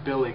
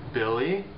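First: The name is said in a calm tone. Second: The name is said in a questioning tone. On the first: A father is simply calling his son over. "Just means a regular way, normal way to call his son" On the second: The speaker is asking whether Billy is there.

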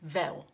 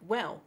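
First: The word begins with a v sound. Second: The word begins with a w sound. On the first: "would be pronounced as vel" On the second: "a word like well"

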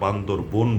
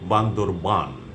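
First: The final syllable is said as 'bon'. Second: The final syllable is said as 'ban'. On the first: The speaker calls it wrong. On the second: The speaker calls it right.

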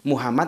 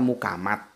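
First: The middle consonant is a breathy H sound. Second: The middle consonant is a hard K sound. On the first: This is the standard pronunciation. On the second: This is how Javanese speakers say it.

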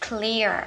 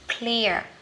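First: The opening consonants are blended together. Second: The opening consonants are blended together.

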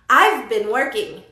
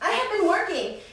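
First: Have is reduced to a faint v sound. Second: The word have is said in full. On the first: "casi no se escucha tanto el V porque está junto con been" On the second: "you can say I have"

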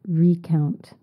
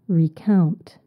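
First: The stress is on the first syllable. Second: The stress is on the second syllable. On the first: It means to count something again. "If you change the stress and you say recount, it means to count something again" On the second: It means to tell the story of what happened. "To recount something is to tell the story of what happened"

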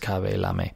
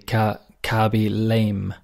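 First: Lame is not said like the English word. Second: Lame is said like the English word lame. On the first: The speaker calls it right. "But I'm sure it's Cabe Lame" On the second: The speaker calls it wrong. "The typical pronunciation, perhaps in English, would be Cabe Lame. That's how we pronounce L-A-M-E"

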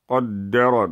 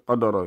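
First: The d sound is held long and doubled. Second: The d sound is short and single. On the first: The speaker calls it right. "There's a شدة, okay, on top of the dal" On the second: The speaker calls it wrong. "Don't say قدرة"

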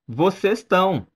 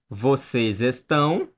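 First: The verb is shortened, dropping its first syllable. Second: The verb is said in full as estão.

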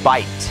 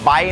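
First: The word ends with a clear t sound. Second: The word ends without any t sound. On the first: The word means to bite. The speaker calls it right. "ต้องมีเถอะตอนท้ายนะครับ, bite, อย่างนี้นะครับ" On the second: It becomes a different word meaning by. The speaker calls it wrong. "ถ้าออกเสียงว่า, bite, นะครับก็จะเป็นคำว่า, by"

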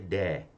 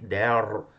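First: It is said with a British accent. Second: It is said with an American accent.

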